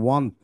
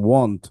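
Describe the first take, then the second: First: "want" said with the common mistaken vowel; mispronounced want. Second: "want" as "wawnt", rounded open o; louder, careful "want" with an aw vowel; correct pronunciation of want. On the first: Teacher shows how "want" isn't said, mistaken pronunciation. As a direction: demonstrate the common misreading of "want". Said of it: "এটা আসলে want বলা হয় না". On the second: Teacher gives class the correct "want", careful rounded vowel. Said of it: "এটার সঠিক উচ্চারণটা হচ্ছে want". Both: Shown as a demonstration.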